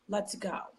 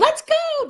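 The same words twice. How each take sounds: First: It is said slowly in a flat, monotone voice. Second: It is said quickly with excited, high energy. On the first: The dog stays calm. The speaker calls it right. "use like sort of monotone voice and slowly say" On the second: The dog gets worked up again. The speaker calls it wrong. "the dog is going to run out of there"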